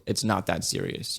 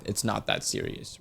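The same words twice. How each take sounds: First: Said in the usual way. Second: Soft unvoiced whisper; whispered aside. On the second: Real, not acted. Reviewer whispers to readers it's not that serious. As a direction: drop to a hush, let it go.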